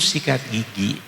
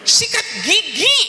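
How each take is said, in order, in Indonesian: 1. Diucapkan dengan pelan dan lembut. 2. Diucapkan dengan keras dan tegas. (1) "Kan kau bicara dari halus" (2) "akhirnya menjadi tekanan yang keras"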